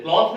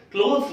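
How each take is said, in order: First: क्लॉथ with an open aw vowel, no s; mistaken word form. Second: क्लोथ्स with a long o and final s; correct word form. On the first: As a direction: say क्लॉथ with aw, ending without s. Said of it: "क्लॉथ नहीं बोलते हैं". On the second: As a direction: say क्लोथ्स with oh, ending on s. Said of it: "क्लोथ्स बोलते हैं". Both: Shown as a demonstration.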